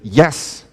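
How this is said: The yes sounds firm and confident. The answer is certain. "then you're pretty sure"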